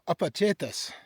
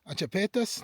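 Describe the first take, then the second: First: The syllables come in the order a-pa-che-tas. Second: The syllables cha and pa are swapped. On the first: The speaker calls it right. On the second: The speaker calls it wrong. "I'm going to say it wrong, I always do"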